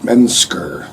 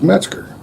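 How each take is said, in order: First: The name is said with n, s, k sounds. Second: The name is said with a t-z-g sound. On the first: The speaker calls it wrong. "used to call it Mensker. There's no N in there" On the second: The speaker calls it right. "my given last name is Metzger"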